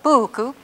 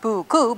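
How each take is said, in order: First: The stress is on the first syllable. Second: The stress is on the second syllable. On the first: The speaker calls it right. "but buku" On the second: The speaker calls it wrong. "not buku"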